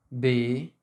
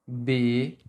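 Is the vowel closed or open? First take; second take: closed; closed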